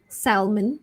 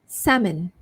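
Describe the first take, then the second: First: The L in the word is sounded. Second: The L in the word is silent. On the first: The speaker calls it wrong. "previously you might have thought it's salmon" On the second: The speaker calls it right. "So it's actually salmon. So silent L there"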